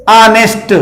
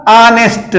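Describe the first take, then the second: First: ऑनेस्ट said with a silent h, starting on a plain "aa"; ऑनेस्ट, no h sound, opening on a plain "aa"; saying honest. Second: ऑनेस्ट again with no h, opening on a plain "aa"; ऑनेस्ट, the h left silent, starting on "aa"; saying honest. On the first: Teacher showing pupils how honest is said, ऑनेस्ट with silent h. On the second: Teacher repeating honest for pupils, ऑनेस्ट with silent h. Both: Shown as a demonstration. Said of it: "पढ़ा ये जाएगा".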